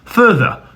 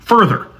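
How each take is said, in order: First: It is said in a British accent. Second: It is said in an American accent. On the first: "if you're British, you probably pronounce the two vowels differently" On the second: "If you're American like me, you probably pronounce the first vowel the exact same as the second vowel"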